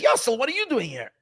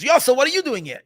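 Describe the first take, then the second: First: Said in the usual way. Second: Louder, higher startled cry to his son; surprised call. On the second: Retold or imitated. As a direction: call out the name in shock. Father surprised seeing his son.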